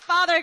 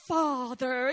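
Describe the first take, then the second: First: The word is said in an ordinary voice. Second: The word is said in a deep voice. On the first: The speaker calls it wrong. "It's not just Father" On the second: The speaker calls it right. "In the deep voice"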